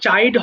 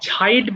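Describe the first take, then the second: First: The first consonant is a plain, unaspirated ch. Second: The first consonant is a breathy, aspirated ch. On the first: The speaker calls it wrong. "এটা কিন্তু চাইড হবে না" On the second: The speaker calls it right. "ছাইড বলবা"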